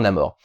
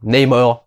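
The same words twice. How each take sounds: First: The name is said with a French accent. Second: The name is said with an American accent. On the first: This is how French speakers would probably say it. "Les Françaises diront, diront probablement" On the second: This is how Americans say it. "si tu prononces à l'américaine"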